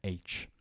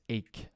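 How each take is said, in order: First: The word ends with a ch sound. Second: The word ends with a k sound. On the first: The speaker calls it wrong. "I often hear H" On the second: The speaker calls it right. "but it's ache"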